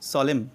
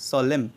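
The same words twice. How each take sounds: No difference in how they are said.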